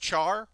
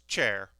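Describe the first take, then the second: First: The vowel sounds like in 'car'. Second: The vowel sounds like in 'care'. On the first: The speaker calls it wrong. "I learned it as char" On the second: The speaker calls it right. "but it, it's chair"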